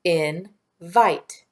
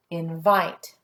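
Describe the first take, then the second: First: IN and VITE said apart, a pause between; split into syllables. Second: Said in the usual way. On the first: Shown as a demonstration. Teacher tapping out syllables for pupils, split into syllables. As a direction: break Invite into "in", pause, "vite". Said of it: "Let's tap the syllables". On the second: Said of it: "let's check invite".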